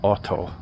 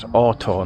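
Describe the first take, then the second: First: The first vowel is long, as in 'automatic'. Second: The first vowel is short, as in 'hot'. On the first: The speaker calls it wrong. "not Otto. Automatic" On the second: The speaker calls it right. "that's Otto"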